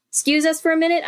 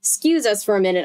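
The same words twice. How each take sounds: First: Put-on "'Scuse us for a minute" lifted much higher, polite kid asking; brighter girl voice. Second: Said in the usual way. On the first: Shown as a demonstration. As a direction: ask the grown-ups in a higher, sweeter voice.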